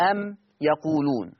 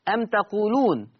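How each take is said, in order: First: يقولون starting with a clear ي; Warsh reading. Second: تقولون starting with a clear ت, said slowly; Hafs reading. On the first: Teacher recites Warsh from Nafi for students. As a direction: say أم يقولون with the ي of the third person. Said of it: "ورش عن نافع يقول إيه؟". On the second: Teacher recites the Hafs reading for students, slowly. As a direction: say أم تقولون with the second-person ت. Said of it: "تقرأ بتاء الخطاب". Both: Shown as a demonstration.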